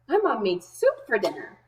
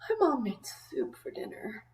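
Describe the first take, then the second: First: The voice sounds happy and cheerful. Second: The voice sounds tired and sleepy. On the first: The person is pleased about the soup. "The first way I'm going to read it is happy" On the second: The person just woke up and wants no food. "You could read it in a tired way"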